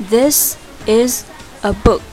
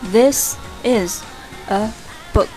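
Both takes have the same delivery.

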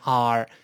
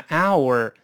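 First: The word is reduced to a single r-colored vowel. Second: The word is said fully with both vowels. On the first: "在口语中咱们一般都把它简化成r" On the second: "我们读单词呢可以把它读成our"

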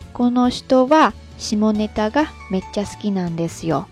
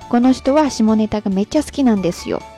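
First: The sentence is spoken a little more slowly. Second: The sentence is spoken at normal speed.

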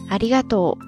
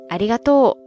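First: It uses the standard Tokyo Japanese pitch pattern. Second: It uses the Kansai dialect pitch pattern. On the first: It sounds refined and politely courteous. "这个发音呢，其实算标准的日语发音了" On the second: It sounds playful, fun and friendly. "在关西方言当中呢，大家通常会说"

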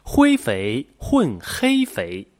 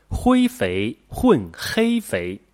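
Both takes have the same delivery.

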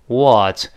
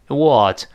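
No difference in how they are said.

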